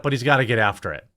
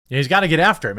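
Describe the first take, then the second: First: Said in the usual way. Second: Louder and higher, pressing the point; punchy rally-style push; emphatic repeat. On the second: Real, not acted. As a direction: hammer it home a second time.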